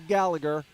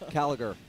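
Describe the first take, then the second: First: The name begins with a G sound. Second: The name begins with a K sound. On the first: The speaker calls it wrong. "not with the G, so don't say Gallagher" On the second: The speaker calls it right. "With the C"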